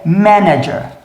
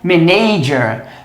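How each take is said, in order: First: The stress is on the first syllable. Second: The stress is on the second syllable. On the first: The speaker calls it right. "mas na verdade é manager" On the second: The speaker calls it wrong. "Muita gente fala isso aqui como manager"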